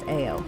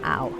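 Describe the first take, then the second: First: It is said as two separate letters. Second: It is said as one syllable, like 'ow'. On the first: The speaker calls it right. "It is A O" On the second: The speaker calls it wrong. "it is not ow"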